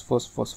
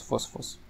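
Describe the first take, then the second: First: Said in the usual way. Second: فوز، فوز said in an unvoiced whisper. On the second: Real, not acted. Gamer reading the cheater's win streak, fading to a whisper. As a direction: let فوز، فوز fade out into a whisper.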